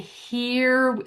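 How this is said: An American accent with a tight vowel.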